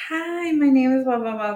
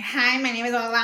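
First: High, singsong canned greeting; raised-pitch mock spiel, loud at first; lady's introduction spiel. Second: Slightly high mocking echo of a greeting; quicker, less singsong mock hello; angry mimicry. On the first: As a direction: imitate a rehearsed, overfriendly introduction. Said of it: "she had that whole spiel". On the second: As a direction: lightly parrot the introduction back in scorn. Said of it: "I went off on that lady".

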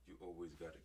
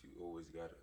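No difference in how they are said.

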